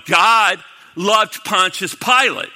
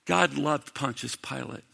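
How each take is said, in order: First: Slow, louder, every word weighted; slow emphatic proclamation. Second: Dropped to a soft, quiet aside; quiet, reflective statement; hushed. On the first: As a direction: press each word home to the room. Preacher repeats key line, emphatic. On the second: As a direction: let it fall softly, almost to yourself. Preacher repeats key line, hushed. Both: Acted.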